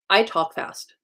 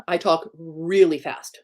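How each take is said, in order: First: Said in the usual way. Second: "really" drawn out slowly for emphasis; stress on really. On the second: Real, not acted. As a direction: stretch out the word "really" before landing on "fast". Repeats it, intensified by really.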